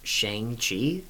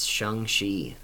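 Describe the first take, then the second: First: The vowel in Shang is drawn out. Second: The vowel in Shang is short. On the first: The speaker calls it wrong. "is the wrong pronunciation" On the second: The speaker calls it right. "It's Shang-Chi"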